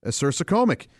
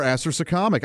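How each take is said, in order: First: Acersocomic said uh-SER-suh-COME-ic; long-o pronunciation. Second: Acersocomic said AS-er-suh-COM-ic; short-o pronunciation. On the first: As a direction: say acersocomic with COM rhyming with home, stressed. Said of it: "the emphasis is on the C O M". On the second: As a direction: say acersocomic with COM like comma, stressed. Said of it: "or acersocomic". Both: Shown as a demonstration.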